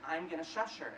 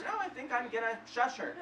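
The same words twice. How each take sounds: First: Said in the usual way. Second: Higher-pitched imitation of a determined friend; lightly mocked stubborn reply; breezy insistence. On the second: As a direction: brush off the plea, pitched up. Friend insists over his plea.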